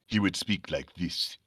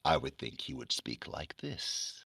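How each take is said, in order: First: Low, soft African-accented character voice. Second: Low, hushed, slow character voice; Sandman. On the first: Comic fan voicing tribesmen from Conan, African accent. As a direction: lower and softer, in an imitated African accent. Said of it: "I was doing all these accents". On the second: Comic fan voicing his favourite character, Sandman voice. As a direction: speak very softly and low, drawing it out. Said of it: "so I would do his voice". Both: Shown as a demonstration.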